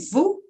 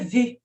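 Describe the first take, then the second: First: The vowel is a plain rounded 'oo' sound. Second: The vowel is an 'ee' sound with rounded lips. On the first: The speaker calls it wrong. "não é nem vu" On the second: The speaker calls it right. "a pronúncia é um vu com som de i"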